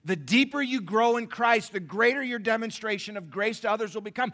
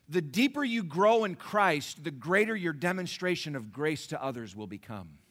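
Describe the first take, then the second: First: Shouted preaching. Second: Strong preaching. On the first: Preacher shouting the repeated line to the congregation. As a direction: hammer the line home. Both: Shown as a demonstration. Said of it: "repeated louder".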